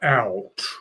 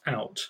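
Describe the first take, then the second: First: It is said slowly and sounds Cockney. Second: It is said at normal speed, not Cockney.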